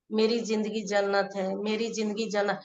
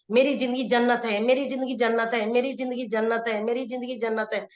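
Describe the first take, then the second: First: Slow, soft repetition; slow affirmation. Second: Quick, rapid-fire repeats; fast affirmation. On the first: Coach shows the slow way that gives the mind time, softly. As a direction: let the words drag softly. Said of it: "यानी कि हम बोलेंगे". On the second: Coach shows the fast way that leaves no doubt, quickly. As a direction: rattle it off fast without a pause. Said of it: "अगर हम यही तेजी में बोल रहे हैं". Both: Shown as a demonstration.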